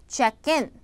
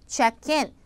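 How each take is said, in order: No difference in how they are said.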